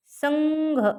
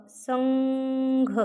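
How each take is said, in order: First: Said in the usual way. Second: संघ drawn out very slowly, nasal ङ held; slow demo pronunciation. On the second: Shown as a demonstration. (संघ सावकाश, अनुनासिक लांबवून) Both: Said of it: "इथं पण ग चाच उच्चार होतोय बघा".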